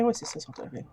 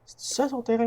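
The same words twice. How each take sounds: First: "Oui, c'est ça son terrain" softer, settling low; self-answer. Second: "C'est ça son terrain" higher, with a peak on "ça"; questioning. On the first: Player answering her own question, "Oui" low and soft. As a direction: confirm it quietly, "Oui" dropping down. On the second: Player checking the lot to herself, "ça" raised in question. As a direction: wonder aloud, pitching "ça" up. Asks herself, then answers. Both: Real, not acted.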